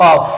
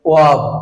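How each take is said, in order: First: The word ends with an f sound. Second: The word ends with a v sound. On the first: The speaker calls it wrong. "আমরা ভুল উচ্চারণ করছি অফ" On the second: The speaker calls it right. "সঠিক উচ্চারণ হবে ওয়াব"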